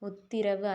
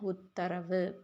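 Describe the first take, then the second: First: The second syllable has an i vowel. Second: The second syllable has an a vowel. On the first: The speaker calls it wrong. "உத்திரவு அல்ல" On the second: The speaker calls it right. "தீ வரக்கூடாது. தா"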